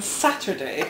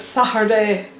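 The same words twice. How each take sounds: First: "Saturday" with the T sounded; Saturday pronounced fully. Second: "Saturday" with the middle T dropped; Saturday without the T. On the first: Contrasting own way with Titch's, "Saturday" with its T. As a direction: say all of "Saturday", T included. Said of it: "I would say sandwich with a D". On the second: Showing how Titch says it, "Saturday" without its T. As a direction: swallow the T in "Saturday", like "Sa'urday". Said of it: "she says Saturday". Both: Shown as a demonstration.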